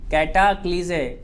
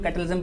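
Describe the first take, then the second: First: "कैटाक्लिजे" read out as kai-taa-kli-ze; correct pronunciation. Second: "कैटलिज्म" shortened to kai-tal-izm; mistaken pronunciation. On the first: Teacher shows students how the word reads, correct pronunciation. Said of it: "क्या लिखा है?". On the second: Teacher quotes how some people misread it, mistaken pronunciation. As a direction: say "कैटलिज्म" quickly, dropping the "klee" sound. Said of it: "थोड़ा सा गलत हो जाएगा". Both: Shown as a demonstration.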